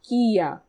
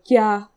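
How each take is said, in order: First: It is said slowly as two separate syllables. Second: It is said quickly, merged into one syllable. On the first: The speaker calls it wrong. "you would think you would re- read it kia" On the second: The speaker calls it right. "if you read it fast"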